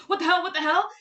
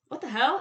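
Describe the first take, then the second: First: High, louder mock outrage, nearly laughing; Robin, extremely upset. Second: Understated, imitated irritation; mildly miffed, retold at ordinary pitch; a little upset. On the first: Robin reacting after Vicky, hammed-up extremely upset. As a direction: act out an upset outburst, pitched up and loud. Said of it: "but Robin's extremely upset". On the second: Vicky reacting to the radio, mildly upset imitation. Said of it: "Vicky's a little bit upset".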